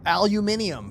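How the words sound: The word is said the British way.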